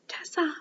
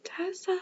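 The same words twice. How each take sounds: First: Put-on a light British accent calling out Tessa. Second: Put-on high call from downstairs, no accent. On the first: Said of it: "I was doing a little British accent". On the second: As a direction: call Tessa! plainly but high. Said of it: "I won't do that".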